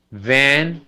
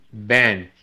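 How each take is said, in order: First: Van with a buzzing v; Van with teeth on lip; right v; correct v. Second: Van said as ban with a b; van with a Spanish b; wrong b sound. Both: Shown as a demonstration. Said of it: "Porque si no".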